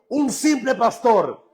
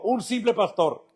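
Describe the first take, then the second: First: It is said with more energy. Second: It is said with low energy.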